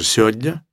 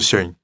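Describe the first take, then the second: First: More sounds of the word are dropped. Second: Most sounds of the word are dropped. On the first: "может быть, даже сегодня" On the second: "а может быть, даже сегодня"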